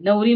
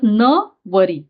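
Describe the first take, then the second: First: The word is said as one unbroken unit. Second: The word is split with a break after न. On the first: It means a bride or wife. "नवरी म्हणजे काय? तर त्याची पत्नी" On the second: It means I will not marry him. "इथे आपण उच्चार वाचताना कसं वाचणार आहोत? न वरी"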